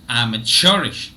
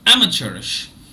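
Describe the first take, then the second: First: The first and third syllables are both stressed. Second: Only the first syllable is stressed. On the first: "in the American pronunciation, churn is stressed, but am is also stressed" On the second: "Now look at the British pronunciation. Only am is stressed"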